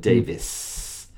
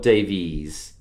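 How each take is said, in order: First: The name ends with a 'vis' sound. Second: The name ends with a 'veez' sound. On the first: The speaker calls it right. "but Davis" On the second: The speaker calls it wrong. "Not Davies"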